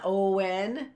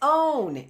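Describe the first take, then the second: First: It is said as two syllables, with a w-glide. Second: It is said as one syllable, no w-glide. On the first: The speaker calls it wrong. "It's not Owen" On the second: The speaker calls it right. "As if the W were silent"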